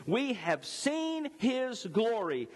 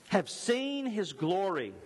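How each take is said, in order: First: "seen" drawn out at half speed, falling; very slow, every word weighed. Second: "seen" held long and high, slow; stress on seen. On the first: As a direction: stretch "We have seen his glory" out slowly. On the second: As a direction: lean on "seen" slowly. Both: Shown as a demonstration.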